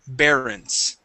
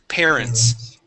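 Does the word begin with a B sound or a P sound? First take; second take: B; P. First: The word begins with a voiced B sound. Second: The word begins with a voiceless P sound. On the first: The speaker calls it wrong. "here you're pronouncing a B" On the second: The speaker calls it right. "give me a P sound"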